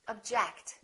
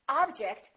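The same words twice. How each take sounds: First: The stress is on the second syllable. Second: The stress is on the first syllable. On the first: It is a verb. "Or verb" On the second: It is a noun. "Object is a noun"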